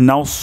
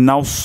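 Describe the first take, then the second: Both takes have the same delivery.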